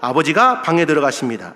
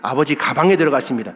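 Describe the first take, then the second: First: The break comes right after the syllable 'ga'. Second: The break comes right before the syllable 'ga'. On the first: Father goes into the room. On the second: Father goes into the bag.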